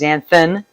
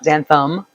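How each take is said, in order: First: The last syllable ends with an n sound. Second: The last syllable ends with an m sound. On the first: The speaker calls it right. "there's no M in there. It's xanthan" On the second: The speaker calls it wrong. "not xanthum"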